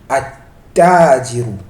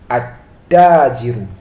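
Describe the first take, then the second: First: The l is dropped and the t is doubled. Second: The same.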